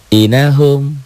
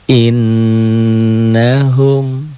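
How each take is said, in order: First: The n is short, with no nasal hum. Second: The n is doubled and held with nasal hum. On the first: The speaker calls it wrong. "Kalau dihilangkan tuh, tuh dihilangkan inahum gitu kan" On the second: The speaker calls it right. "balikin lagi"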